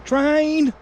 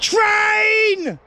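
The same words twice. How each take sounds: First: High call of train; first call, not loud enough yet. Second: Much higher, louder shout of train; full shout. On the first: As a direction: call it out to the family. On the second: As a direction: yell it so the whole valley hears. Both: Real, not acted. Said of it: "that weren't loud enough".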